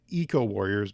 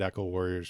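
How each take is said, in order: First: The first syllable sounds like "eek". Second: The first syllable sounds like "eck". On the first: The speaker calls it right. "I'm going to do my best to pronounce it Eco Warriors" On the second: The speaker calls it wrong. "I said Echo Warriors for the first forty-six years of my life"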